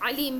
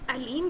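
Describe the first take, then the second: First: علیم with a throaty ain; ain pronunciation. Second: علیم with a plain hamza a; open, unsqueezed first sound in علیم; alif pronunciation. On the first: Teacher saying you have seen both words, ain onset. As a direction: squeeze the throat on the first sound of علیم. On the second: Teacher saying you have seen both words, alif onset. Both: Shown as a demonstration. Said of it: "دونوں چیزیں دیکھی ہوں گی".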